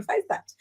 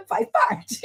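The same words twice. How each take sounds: First: Breathy whisper of faz parte after a laugh; whispered aside. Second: Squeaky jump way up on Faz parte; high teasing faz parte; high mock. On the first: Acted. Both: Joking about getting older.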